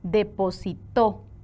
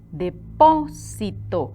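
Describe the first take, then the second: First: The stress is on the last syllable, to. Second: The stress is on the second syllable, po. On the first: Someone deposited, in the past. "Según la sílaba tónica, la palabra va a adquirir un significado diferente" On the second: A deposit, a noun. "¿Ven dónde llevan la sílaba tónica?"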